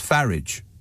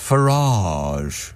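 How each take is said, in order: First: The name is said in a plain, everyday way. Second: The name is said in a posh, refined way. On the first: It is aimed at ordinary pub-goers. "If he's uh, doing his uh, flat hat and uh, pint routine, then it's Farage" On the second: It is aimed at a wealthy upmarket audience. "If he's um, speaking to people at the Savoy, it's Farage"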